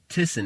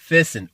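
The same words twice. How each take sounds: First: The name is said with its German pronunciation. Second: The name is said with an English pronunciation.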